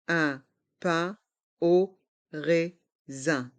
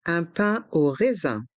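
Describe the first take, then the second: First: Slow "Un pain au raisin", every syllable apart; learner-paced, split "Un pain au raisin". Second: Said in the usual way. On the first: Shown as a demonstration. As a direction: separate each sound of "Un pain au raisin". Teacher breaks phrase into syllables.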